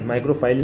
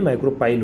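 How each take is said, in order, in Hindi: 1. बीच का व्यंजन f की ध्वनि है। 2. बीच का व्यंजन p की ध्वनि है। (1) "माइक्रोफाइल नहीं" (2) "माइक्रोपाइल होगा, एच नहीं है"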